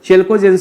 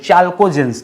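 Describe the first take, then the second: First: The first vowel is a front 'eh' sound. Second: The first vowel is an open 'ah' sound. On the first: "चेल्कोजेंस भी दोस्तों इसे कहा जाता है" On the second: "कुछ लोग ज्यादा शुद्ध इंग्लिश में बोलते हैं तो चाल्को बोलते हैं"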